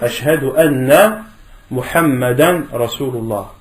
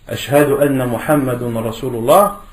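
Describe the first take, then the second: First: The name ends with the vowel sound 'an'. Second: The name ends with the vowel sound 'un'. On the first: The speaker calls it right. "il faut dire" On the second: The speaker calls it wrong. "c'est une erreur"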